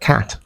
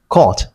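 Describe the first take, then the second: First: The vowel is an open 'a' sound. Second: The vowel is a rounded 'o' sound. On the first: This is how the younger generation says it. "instead of cat" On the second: This is how the older generation says it. "the older generations of Ghana would rather say court"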